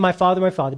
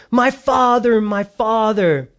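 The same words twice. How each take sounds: First: Said in the usual way. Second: Crying out. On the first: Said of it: "he's saying". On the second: Acted. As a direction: call out the name, then stretch the second one. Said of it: "And he cried out".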